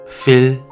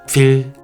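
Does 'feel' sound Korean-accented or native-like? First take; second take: Korean-accented; Korean-accented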